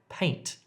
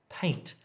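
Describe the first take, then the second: Both takes have the same delivery.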